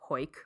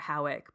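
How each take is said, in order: First: One syllable with an 'oy' vowel. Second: Two syllables, starting with an 'ow' vowel. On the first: This is how locals actually say it. The speaker calls it right. "but it's pronounced Hoyk" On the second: It is read the way it is spelled. The speaker calls it wrong. "or Howick"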